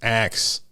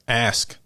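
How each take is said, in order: First: The word ends with a ks sound. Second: The word ends with an sk sound. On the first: This is how the speaker naturally says it. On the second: This takes the speaker extra effort. "I have to make an extra effort to say ask"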